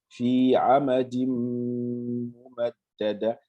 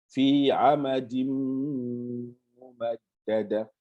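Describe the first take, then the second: No difference in how they are said.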